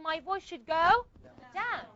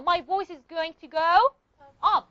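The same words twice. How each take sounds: First: Slow lead-in, pause, then a falling "down"; falling intonation. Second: Pause, then land a stressed "up"; rising intonation. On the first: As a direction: hold off, then drop the pitch on "down". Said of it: "for W H question". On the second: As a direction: voice climbing through "go", then UP set apart. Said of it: "for yes or no questions". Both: Shown as a demonstration.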